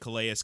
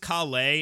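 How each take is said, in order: First: The name is pronounced a non-French way. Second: The name is pronounced the French way. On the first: The speaker calls it wrong. "It's not Calais like Calais Campbell" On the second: The speaker calls it right. "It's the French pronunciation"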